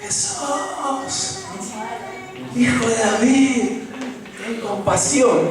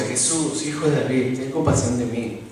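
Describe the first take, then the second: First: High-pitched pleading cry, slowed down; the blind beggar calls out to Jesús, high and pleading; desperate plea. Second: As people read it, quietly, without any cry; flat quiet reading. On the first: Acted. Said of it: "se pone a gritar". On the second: Shown as a demonstration. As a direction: softly read out, no feeling, the way we usually read it. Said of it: "No, leemos nosotros".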